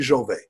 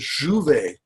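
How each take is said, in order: First: The name is pronounced the English way. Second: The name is pronounced the French way. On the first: "they say Jouvet" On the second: "the real French pronunciation is Jouvet"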